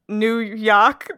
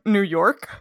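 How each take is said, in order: First: It is said in an exaggerated put-on local accent. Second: It is said plainly in the speaker's own accent. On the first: "That's not the accent that I have" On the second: "I live in Nova Scotia, so it'd probably be like New York"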